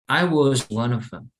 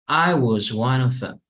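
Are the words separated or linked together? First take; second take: linked; linked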